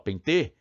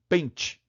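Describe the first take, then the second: First: The stress is on the last syllable. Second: The stress is on the first syllable. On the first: The speaker calls it wrong. "Você fala pentê?" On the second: The speaker calls it right. "Vogal dois é pen, né? A sílaba aí é pen"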